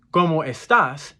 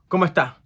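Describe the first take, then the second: First: "¿Cómo estás?" with every syllable and final s sounded; full standard pronunciation. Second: "¿Cómo está?" contracted to "comotá", no final s; fast Puerto Rican Spanish. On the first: Teacher contrasting with Puerto Rican speech, full "¿Cómo estás?". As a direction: say "¿Cómo estás?" fully, word by word. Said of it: "instead of". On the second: Teacher imitating Puerto Ricans, quick contracted "¿Cómo está?". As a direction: rush "¿Cómo está?" into one short word. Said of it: "they might say". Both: Shown as a demonstration.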